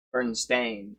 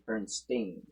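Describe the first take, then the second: First: Bernstein ending like "stain"; STAIN pronunciation. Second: Bernstein ending like "steen"; STEEN pronunciation. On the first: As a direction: say Bernstein with a long AY in the last syllable. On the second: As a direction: say Bernstein with a long EE in the last syllable. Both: Shown as a demonstration. Contrasting two spellings of the name.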